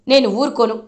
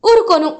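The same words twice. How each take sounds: First: Said in the usual way. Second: Repeated word, higher and louder; emphatic warning. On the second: Retold or imitated. Mother warns Damini not to disrespect elders, emphatic. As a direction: hammer the warning home.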